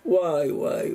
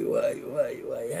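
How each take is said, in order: First: Said in the usual way. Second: The ouai words whispered, voice dropped away; awed whisper. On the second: Real, not acted. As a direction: breathe ouai ouai in quiet wonder. Same words drop to whisper.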